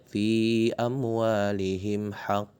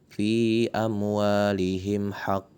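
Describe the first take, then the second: Both takes have the same delivery.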